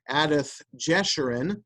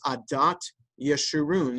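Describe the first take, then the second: First: The second word begins with a j sound. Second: The second word begins with a y sound.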